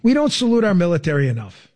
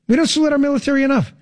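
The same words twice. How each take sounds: First: Said in the usual way. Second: Higher, faster, punched repeat; emphatic repeat. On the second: Real, not acted. Host repeating it for the audience, emphatic and quick. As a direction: drive the point home harder.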